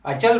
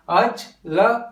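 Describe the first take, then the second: First: अचल said slowly as अ-चल, with चल joined; syllables joined. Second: अचल said slowly as अ, च, ल broken apart; syllables split apart. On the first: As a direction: say अचल as अ-चल, चल in one go. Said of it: "हम अचल बोल रहे हैं". (अचल को अ-चल, चल को एक साथ जोड़कर) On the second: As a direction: break अचल into separate syllables, the wrong way. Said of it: "अचल नहीं बोल रहे". (अचल को अ-च-ल अलग-अलग तोड़कर, धीरे) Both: Shown as a demonstration.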